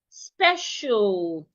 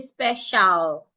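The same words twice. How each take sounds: First: The final syllable has no audible A vowel. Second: The final syllable has a full A vowel. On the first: The speaker calls it right. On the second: The speaker calls it wrong.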